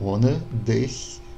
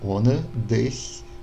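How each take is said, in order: First: The ch is a soft palatal hiss. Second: The ch is a soft palatal hiss.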